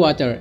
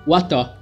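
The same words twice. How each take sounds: First: It is said in an American accent. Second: It is said in a British accent. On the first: "di American itu water" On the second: "in British it can be water"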